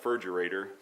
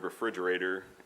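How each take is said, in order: First: Syllables are dropped, starting with 'fur'. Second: It is said in full, starting with 're'. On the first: "his pronunciation" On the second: "the word refrigerator"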